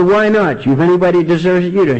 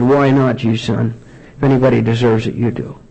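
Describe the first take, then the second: First: High-pitched, comic ex-wife comeback; retold scornful retort. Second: Gentle fatherly answer. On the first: Ex-wife answers his self-pity, retold scornful retort. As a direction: throw it back scornfully, pitched up. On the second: Retold or imitated. Father answers his sober son, gentle reassurance.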